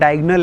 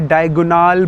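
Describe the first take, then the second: First: The last syllable has a short, reduced vowel. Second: The last syllable has a long, open 'aal' vowel. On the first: "English में उसका नाम डायगोनल है" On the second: "यहाँ पे डायगोनाल बोल रहे हो उसको"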